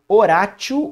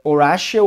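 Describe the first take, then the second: First: The name is said with Portuguese pronunciation. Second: The name is said with English pronunciation.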